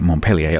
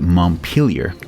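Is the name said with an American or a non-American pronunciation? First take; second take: non-American; American. First: The name is said a non-American way. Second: The name is said the American way. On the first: The speaker calls it wrong. "I confess I've been pronouncing it Montpellier up to now" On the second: The speaker calls it right. "to give it its correct American pronunciation"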